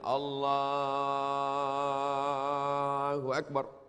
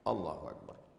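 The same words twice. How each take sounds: First: The phrase is drawn out long. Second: The phrase is said short and quick.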